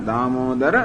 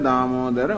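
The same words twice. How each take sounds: Both takes have the same delivery.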